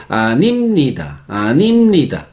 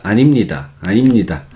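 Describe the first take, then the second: First: Imitating Spaniards, "animnida" with syllables split; Spanish-accented "animnida", swelling on the middle syllable. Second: "animnida" linked up, almost monotone; casi monótono. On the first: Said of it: "Los españoles se dice". (acento español imitado, sílabas separadas) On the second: Shown as a demonstration. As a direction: say "animnida" low and even, syllables hooked together. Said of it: "casi monótono". ("animnida" enlazado, casi monótono)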